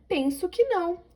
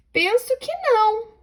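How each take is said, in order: First: A higher, softer repeat; exclaiming. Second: Much higher exclamation on "não"; exclaiming. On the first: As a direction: exclaim it again more softly. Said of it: "Então, exclamação". (exclamando mais suave) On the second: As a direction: exclaim "Penso que não" high. (exclamando "Penso que não") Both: Shown as a demonstration.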